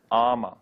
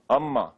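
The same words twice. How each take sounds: First: AMMA as AAH-ma, long open first vowel. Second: AMMA as UM-ma, short uh and held m; short first vowel. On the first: Teacher showing what not to call the saint, long first vowel. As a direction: say AMMA with a drawn-out ah to start. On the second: Teacher naming the famous saint correctly, short first vowel. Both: Shown as a demonstration. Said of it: "not Amma".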